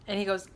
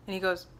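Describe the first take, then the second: No difference in how they are said.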